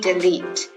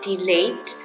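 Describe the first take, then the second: First: It is read with the English pronunciation. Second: It is read the way Indonesians spell it out. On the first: The speaker calls it right. "tapi delete" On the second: The speaker calls it wrong. "It's not delete"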